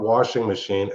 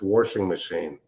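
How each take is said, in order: First: It is said in a plain accent. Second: It is said in a Pennsylvania accent. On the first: "It's not washing machine" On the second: "it's washing machine"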